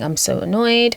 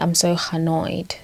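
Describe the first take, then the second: First: Annoyed starts with a plain vowel sound. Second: Annoyed starts with an added h sound. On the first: "rather than it being" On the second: "So there's that H coming through"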